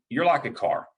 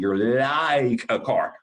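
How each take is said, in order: First: It is said at normal volume and articulation. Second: It is said loudly with over-careful articulation.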